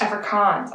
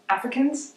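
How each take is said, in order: First: Afrikaans said with a long kaans ending; corrected pronunciation. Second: Africans said as the English word, with a questioning rise; unsure mispronunciation. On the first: Correcting her word after being told, plainly. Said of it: "I apologize". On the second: Reading the headline, unsure how to say the language name. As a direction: ask Africans like you doubt it. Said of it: "Am I saying it wrong?". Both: Real, not acted.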